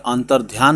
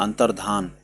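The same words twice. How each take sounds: First: अंतर्ध्यान said with dhyaan, an-tar-dhyaan; teacher to students, showing the wrong form अंतर्ध्यान; wrong pronunciation said. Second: अंतर्धान said with plain dhaan, an-tar-dhaan; teacher to students, giving the correct form अंतर्धान; correct pronunciation. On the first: Teacher to students, saying अंतर्ध्यान with dhyaan as the wrong form. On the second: Teacher to students, saying अंतर्धान with plain dhaan as the correct form. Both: Shown as a demonstration. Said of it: "धान होता है".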